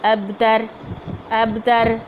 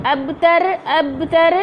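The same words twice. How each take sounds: First: Said in the usual way. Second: अबतर said with a wrong ghunna, pitched up; wrong nasal take. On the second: Shown as a demonstration. Teacher showing the wrong way to say अबतर. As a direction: demonstrate the mistaken nasal अबतर. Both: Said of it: "ये गलत है".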